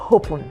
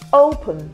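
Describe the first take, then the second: First: The word begins with an added h sound. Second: The word begins with a plain vowel sound. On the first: The speaker calls it wrong. "and not open" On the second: The speaker calls it right. "It's pronounced as open"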